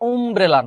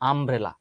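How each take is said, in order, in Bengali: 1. প্রথম স্বরধ্বনিটি গোলাকার 'oo' ধ্বনি। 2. প্রথম স্বরধ্বনিটি খোলা 'ah' ধ্বনি। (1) "আমব্রেলা উচ্চারণ আসলে উমব্রেলা না" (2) "আমব্রেলার উচ্চারণটা কিন্তু এ এর মতো হয়ে গেছে"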